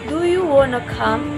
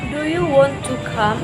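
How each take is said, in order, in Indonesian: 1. 'Want to' dipendekkan menjadi 'wanna'. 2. 'Want to' diucapkan sebagai dua kata penuh. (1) "Wanna, want to" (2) "instead of"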